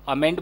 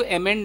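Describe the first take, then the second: First: अमेंड said with an opening schwa, as "uh-MEND"; A-sound amend. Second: अमेंड said with an opening "eh", as "eh-MEND"; E-sound emend. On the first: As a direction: start अमेंड on a short "uh" vowel. (अमेंड को छोटे "अ" से, "अ-मेंड" बोलें) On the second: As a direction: start अमेंड on a clear E vowel, like emend. (अमेंड को "ए" की आवाज़ से, "एमेंड" बोलें) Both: Shown as a demonstration. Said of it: "अ वाला होगा, ए वाला होगा".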